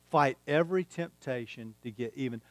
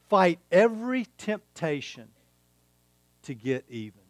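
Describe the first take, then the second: First: Softer, letting "Fight every temptation to get even" sink in; quiet repeat. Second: Said in the usual way. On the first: Shown as a demonstration. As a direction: say it again quietly for it to land.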